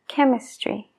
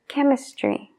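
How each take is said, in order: No difference in how they are said.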